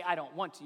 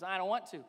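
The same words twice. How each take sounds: First: Said in the usual way. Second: Put-on whiny nasal little-kid voice; nasally toddler voice. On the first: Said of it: "Anytime you say". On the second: Shown as a demonstration. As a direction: pout it like a stubborn toddler. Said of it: "you have to do the nasally toddler voice".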